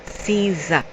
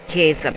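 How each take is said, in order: First: "Caesar" said SEE-za, with a soft C; corrected pronunciation. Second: "Keza" said KAY-za, with an ay vowel; rejected pronunciation. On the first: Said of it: "In the Latin we say Caesar". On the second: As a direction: say "Keza" with a hard K and ay. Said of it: "but Caesar". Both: Shown as a demonstration.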